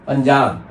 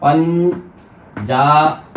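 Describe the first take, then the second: First: Said in the usual way. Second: Very slow "पंजाब" in separate syllables; syllable-split demonstration. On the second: Shown as a demonstration. Teacher demonstrating the nasal sound, "पंजाब" slowly split. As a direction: stretch "पंजाब" as पञ, जा, ब with gaps. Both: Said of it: "अंग की ध्वनि को य बोल करके".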